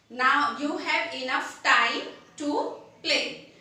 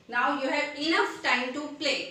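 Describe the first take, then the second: First: Slow, deliberate example sentence; measured classroom demo, word by word; slow example read. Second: Said in the usual way. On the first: Shown as a demonstration. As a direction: spell it out slowly for learners. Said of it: "teacher demonstrates example sentence". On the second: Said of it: "teacher repeats example sentence".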